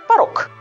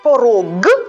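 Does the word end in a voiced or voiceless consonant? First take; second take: voiceless; voiced. First: The final consonant is voiceless, like k. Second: The final consonant is voiced, like g. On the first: "мы произносим «порог»" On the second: "когда мы говорим «порог»"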